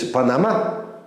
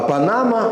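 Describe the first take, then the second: First: The stress falls on a different syllable. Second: The stress falls in the usual position.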